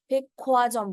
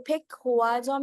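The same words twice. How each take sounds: First: फेक ख्वा जॉम with aspirated kh fused in; correct pronunciation. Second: फेक हुआ जॉम with a separate h sound; the wrong way: फेक हुआ जॉम, h kept apart; wrong pronunciation. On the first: Teacher gives students the right form, फेक ख्वा जॉम with aspirated kh. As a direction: say ख्वा with a puff of air on kh. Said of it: "बोलते हैं". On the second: Teacher shows students what not to say, फेक हुआ जॉम. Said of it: "नहीं बोलते". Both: Shown as a demonstration.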